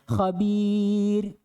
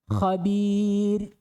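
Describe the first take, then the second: No difference in how they are said.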